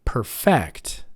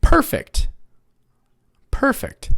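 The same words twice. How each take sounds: First: PerFECT, stressed on FECT; "Perfect" as a verb, weak per and strong FECT; stress on second syllable. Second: PERfect, stressed on PER; "Perfect" as adjective, PER strong and fect weak; stress on first syllable. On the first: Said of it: "try it on the second syllable". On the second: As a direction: hit the first syllable of "Perfect", let the second drop. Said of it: "it's still in the first syllable". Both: Shown as a demonstration.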